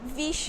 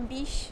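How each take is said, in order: First: The word begins with a v sound. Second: The word begins with a b sound. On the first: This is the usual form elsewhere. "em vez de vixe" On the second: This is the country form from home. "fala biche"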